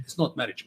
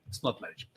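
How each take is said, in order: First: Said in the usual way. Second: Whispered aside. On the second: Real, not acted. Disgusted speaker dismisses contract marriage, whispering. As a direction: breathe it out as a whisper. Repeats phrase then whispers it.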